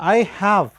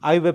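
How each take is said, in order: First: It is said as two separate words. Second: It is said as one contracted syllable.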